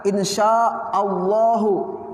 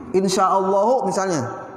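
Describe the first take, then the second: First: Allahu stretched slowly, ending on a long falling hu; drawn-out Allahu. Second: Said in the usual way. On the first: Shown as a demonstration. Teacher demonstrating the reading insya Allahu to the class. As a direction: say Allahu slowly with the final u clear.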